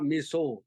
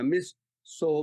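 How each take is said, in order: First: The two parts are run together as one word. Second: The two parts are said as separate words. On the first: It sounds like the Japanese food. The speaker calls it wrong. "the word putting together" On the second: It is a title and a surname. The speaker calls it right. "we call her Miss So"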